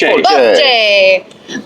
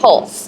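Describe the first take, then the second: First: The surname is said with Italian pronunciation. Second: The surname is said with English pronunciation. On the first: This is how an Italian would say the name. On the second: This is how the family says the name.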